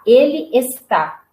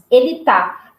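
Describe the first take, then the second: First: The verb is said in its full form. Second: The verb is shortened to its last syllable. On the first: "A mesma coisa com o está" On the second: "Nós falamos ele tá"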